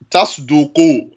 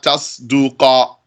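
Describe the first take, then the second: First: The word ends with a u vowel. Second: The word ends with an a vowel. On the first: The verb is in the indicative mood. The speaker calls it right. "you're going to put it in the state of رفع" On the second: The verb is in the subjunctive mood. The speaker calls it wrong.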